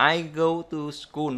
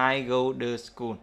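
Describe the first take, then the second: First: Said in the usual way. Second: "to" as a light duh in "I go to school"; t thành d. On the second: Shown as a demonstration. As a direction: soften "to" to duh. (đọc "to" thành đơ trong "I go to school") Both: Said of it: "Bây giờ đọc là".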